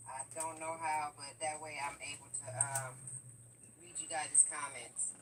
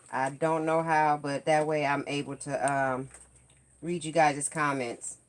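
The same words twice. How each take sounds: First: Faint delayed echo of her voice; distant playback from a phone speaker; canyon echo. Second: Said in the usual way. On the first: Real, not acted. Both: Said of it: "You can hear the, uh, echo".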